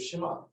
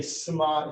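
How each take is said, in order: First: "Shema" with a clear sh at the start; standard SH. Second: "Shema" said as Sima, with s. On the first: Teacher giving the standard form for contrast, sh in "Shema". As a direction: say "Shema" as Shi-ma, sh not s. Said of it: "instead of Shema". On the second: Teacher showing Hungarian-descent pronunciation, s in "Shema". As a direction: swap the sh of "Shema" for s. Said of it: "pronounce these opposite". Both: Shown as a demonstration.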